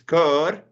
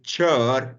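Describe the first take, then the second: First: The word starts with a hard k sound. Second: The word starts with a soft ch sound. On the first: It means a choir. "it's cur" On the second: It means to drive. "if you pronounce it chur, then it's to drive"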